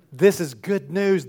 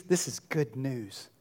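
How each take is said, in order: First: Said in the usual way. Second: Softer, lower and slow; hushed. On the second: Shown as a demonstration. Pastor quietly restating the good news after the psalm, hushed. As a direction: let the words drop almost to a murmur.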